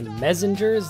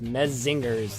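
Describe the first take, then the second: First: It sounds like 'messengers' with a z. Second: It sounds like 'men singers' with a z. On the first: "like messengers with an with a Z" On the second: "like men singers with a Z"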